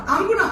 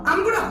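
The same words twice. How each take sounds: The two takes are said the same way.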